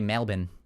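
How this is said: It is said with an Australian pronunciation. "Because in Australian, they they say Melbourne"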